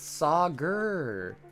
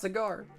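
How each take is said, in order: First: The name ends with an 'er' sound. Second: The name ends with an 'ar' sound, like cigar. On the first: The speaker calls it right. "it's pronounced Sagur. Almost as if like it should have been E R" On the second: The speaker calls it wrong. "it's not Cigar"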